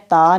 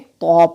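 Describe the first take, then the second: First: The letter is sounded thin, with an open 'a'. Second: The letter is sounded heavy, with a rounded vowel. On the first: The speaker calls it wrong. "ता नहीं पढ़ेंगे" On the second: The speaker calls it right. "बल्कि तो पढ़ेंगे"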